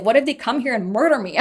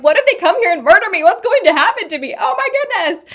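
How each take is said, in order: First: Said in the usual way. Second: Higher, louder, faster frantic panic; hammed-up hysterical fear, climbing even higher at the end; panicked. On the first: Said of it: "I was just like". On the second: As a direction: replay the terror of being threatened. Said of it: "bawling my eyes out".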